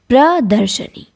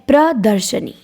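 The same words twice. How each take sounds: The two takes are said the same way.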